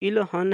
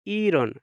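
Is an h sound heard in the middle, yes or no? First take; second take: yes; no. First: An h sound is heard after the l. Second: No h sound is heard after the l. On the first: "तो इलहन है" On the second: "हियत की आवाज़ ख़त्म हो जाएगी"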